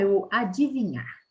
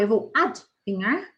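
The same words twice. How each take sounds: First: Adivinhar as a-di-vi-nhar, each i sounded; correct form with i. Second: Adivinhar said as ad-vinhar, i dropped; spoken variant, without the i. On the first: Teacher showing the correct form. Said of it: "adivinhar com i". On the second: Teacher showing the everyday variant. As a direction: say adivinhar with no i sound. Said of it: "Adivinhar com demudo ou adivinhar com i". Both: Shown as a demonstration.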